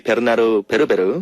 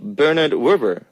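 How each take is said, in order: First: The name is pronounced with Korean sounds, extra vowels. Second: The name is pronounced the usual English way.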